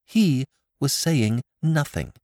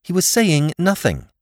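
First: Slow, higher, trembling repeat; a frightened daughter repeats her answer to her father, slow and shaky; voice shaking. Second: Higher and louder, curt and defensive; a daughter answers her father curtly, higher and louder; rather shortly. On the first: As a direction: let the words quiver, slow. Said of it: "Molly's voice shook as she replied". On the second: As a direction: cut him off sharply. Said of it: "she said rather shortly". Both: A narrator's reading.

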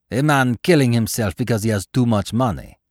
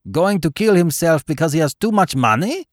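First: Said in the usual way. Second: High, loud amused disbelief; quite tickled. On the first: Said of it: "Baron repeats the idea thoughtfully". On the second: A narrator's reading. Baron tickled by the figure's reason, high amused exclaim. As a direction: exclaim it, delighted at the absurd idea. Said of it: "exclaimed the Baron, quite tickled".

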